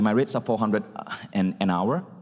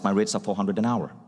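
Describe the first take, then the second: First: It breaks with a slight pause before the end. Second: It is said firmly and steadily, falling at the end. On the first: The speaker is unsure about the price. "Slight pause" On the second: Take it or leave it. "the most commanding one"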